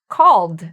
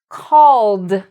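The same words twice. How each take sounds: First: The word is said quickly. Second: The word is said slowly. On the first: "start moving my finger faster and pronouncing it all together" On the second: "use my finger and blend them"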